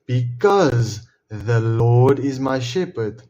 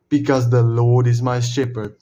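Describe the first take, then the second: First: Each word drawn out slowly and deliberately; slow quoted answer. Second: Said in the usual way. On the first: Shown as a demonstration. Answering his own question with the verse, slow and emphatic. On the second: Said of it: "Why does goodness and mercy follow".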